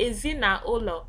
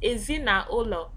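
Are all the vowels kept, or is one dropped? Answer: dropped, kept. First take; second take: kept; kept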